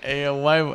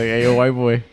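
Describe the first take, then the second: First: Said in the usual way. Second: A lightly voiced foreign boss calling out; mock Japanese man. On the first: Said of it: "That's just so funny to me". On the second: Retelling a boss's nickname for him, lightly voiced caricature. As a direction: call out like a joking caricature of a Japanese man, louder. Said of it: "a Japanese man who's just be like".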